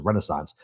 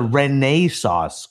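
First: It is said with the ordinary local pronunciation. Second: It is said with the insisted-on formal pronunciation. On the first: This is how people in the area say it. "Everybody here says Renaissance" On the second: This is how the announcers were made to say it. "No, sir. It's the Renaissance Club"

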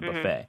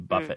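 First: It is said with an American pronunciation. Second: It is said with a British pronunciation. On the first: "and not buffet" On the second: "the Brits tend to say buffet"

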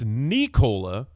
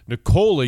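First: The stress is on the first syllable. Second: The stress is on the second syllable. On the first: "emphasis on the knee" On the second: "Jokic's emphasis is on the cola"

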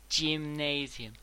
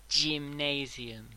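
No difference in how they are said.

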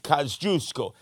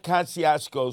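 First: The name has a Polish pronunciation. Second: The name has an anglicized American pronunciation. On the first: The speaker calls it right. "That's the way you pronounce it in Polish" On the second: The speaker calls it wrong. "not Kosciuszko Street, you gavons"

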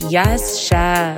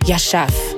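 First: It is said boldly and with gusto. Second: It is said short and clipped.

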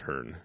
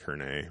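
First: The final E is silent. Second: The final E is pronounced. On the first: The speaker calls it right. "I remembered it as Herne" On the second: The speaker calls it wrong. "not something silly like Herne"

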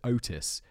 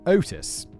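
First: The first vowel O is short. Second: The first vowel O is long. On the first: "You'd shorten the O" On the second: "use the standard pronunciation Otis"

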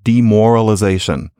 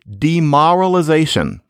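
First: The vowel before the r sounds like 'or'. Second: The vowel before the r sounds like 'ah'. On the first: This is how most people say it today. "as one would most likely pronounce it today" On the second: This is an older way of saying it. "demoralization instead of"

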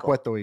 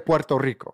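First: The R sounds are weakened, not fully pronounced. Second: The R sounds are fully pronounced and rolled. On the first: This is the Puerto Rican way of saying it. "Not Puerto Rico" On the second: This is the Salvadoran way of saying it. "we pronounce the R's. So you'll say Puerto Rico"

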